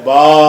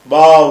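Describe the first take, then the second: First: The letter name ends with an 'a' vowel. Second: The same.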